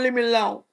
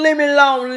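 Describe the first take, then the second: First: Soft whimpering plea; mock crying. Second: Said in the usual way. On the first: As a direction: whine it softly, near tears. Pleading repeated, then mock crying.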